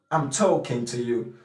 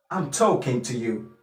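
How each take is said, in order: Both takes have the same delivery.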